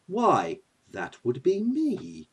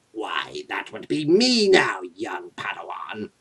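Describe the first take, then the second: First: Slow, softly spoken grand villain; Loki. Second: Low, slow sinister emperor; Emperor Palpatine. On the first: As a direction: announce yourself with quiet self-importance. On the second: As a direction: announce yourself with menacing relish. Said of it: "say hi to Emperor Palpatine". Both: Acted.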